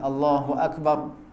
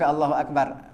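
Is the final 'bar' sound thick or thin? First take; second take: thick; thin. First: The final syllable is thick, with rounded lips. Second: The final syllable is thin, with spread lips. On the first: The speaker calls it right. "kita kena muncung mulut lah, maknanya dia tebal" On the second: The speaker calls it wrong. "bukan Allahu akbar. Bar tu nipis"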